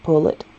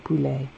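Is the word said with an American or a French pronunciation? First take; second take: American; French. First: It is said with an American pronunciation. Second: It is said with a French pronunciation. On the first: "Americans pronounce it a little bit more like pullet" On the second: "it's actually poulet"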